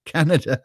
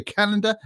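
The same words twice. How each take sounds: First: "Canada" said plainly as "KAN-uh-duh" with a falling close; corrected Canada. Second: "Canada" said as "Calanda", with an extra l and a lift at the end; misread Canada. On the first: Streamer correcting his own misreading, plain Canada. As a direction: settle on the normal "Canada", calmly. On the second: Streamer misreading the chat's "Canada", a garbled first try. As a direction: blurt "Canada" wrongly as "Kalanda". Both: Real, not acted. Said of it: "No, Canada, not Canada".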